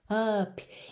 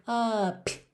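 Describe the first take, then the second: No difference in how they are said.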